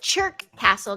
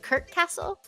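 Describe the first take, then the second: First: The name begins with a 'ch' sound. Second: The name begins with a 'k' sound. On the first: "if you don't say it like Chirk Castle" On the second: "don't you say it without the C H?"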